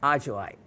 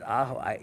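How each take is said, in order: First: The j is said like an English j. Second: The j is said like an h sound. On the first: The speaker calls it wrong. "and it absolutely was not" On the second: The speaker calls it right. "in Spanish, the J sounds like an H"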